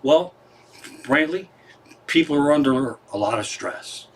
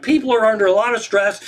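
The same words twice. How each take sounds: First: Calm, understated reply; real calm. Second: High-pitched amazed echo; incredulous retelling. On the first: Acted. Brother explains away the shootout to Belushi, real calmly. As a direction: answer the outburst evenly and matter-of-factly. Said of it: "And real calmly, the other guy says". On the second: Retold or imitated. Comic retells how he explained away a shootout, incredulous. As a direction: repeat the excuse in raised, disbelieving pitch. Incredulous repeat of calm excuse.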